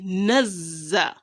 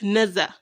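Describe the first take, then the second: First: The z sound is doubled and held long. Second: The z sound is single and short. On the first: The speaker calls it right. "you must pronounce the two of them" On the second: The speaker calls it wrong. "not just naza"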